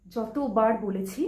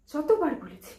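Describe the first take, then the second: First: "যতবার বলেছি" slow, spaced, rising at the end; slow emphasis. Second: "যতবার" raised, falling at the end; exasperated complaint. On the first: Bride-to-be repeats her warning, "যতবার" slow and emphatic. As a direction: spell out "যতবার" word by word. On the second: Bride-to-be recalls warning him, "যতবার" raised in exasperation. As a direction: start high on "যতবার" and let it drop. Complaint, first take before repeat. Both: Acted.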